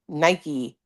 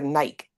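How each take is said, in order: First: It is said with two syllables, ending in ee. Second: It is said with one syllable, rhyming with bike. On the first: "you pronounce Nike, Nike instead of" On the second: "it's spelled like bike"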